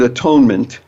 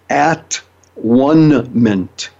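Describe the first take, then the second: First: The middle part sounds like 'tone'. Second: The middle part sounds like 'one'. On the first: "if you look at the word atonement" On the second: "break it up into a different pronunciation, it really can be sounded"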